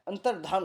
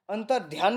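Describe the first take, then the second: First: अंतर्धान said as antar-dhaan, plain dh with no y glide; correct pronunciation. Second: अंतर्ध्यान said with a dhya glide after the t, the wrong way; wrong pronunciation. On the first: Teacher giving students the correct form: अंतर्धान as antar-dhaan. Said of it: "अंतर्ध्यान नहीं होता है, अंतर्धान होता है". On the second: Teacher showing students the wrong form: अंतर्ध्यान with dhyaan. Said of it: "अंतर्ध्यान गलत होता है". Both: Shown as a demonstration.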